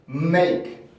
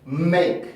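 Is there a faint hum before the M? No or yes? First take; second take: yes; yes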